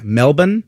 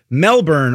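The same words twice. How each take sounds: First: Melbourne as "MEL-bn", the R dropped; local pronunciation. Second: Said in the usual way. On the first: Shown as a demonstration. Co-host explaining the city's name, Melbourne said "MEL-bun". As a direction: say Melbourne with a swallowed second syllable. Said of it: "That's the way you say it". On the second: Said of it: "I guess it's Melbourne?".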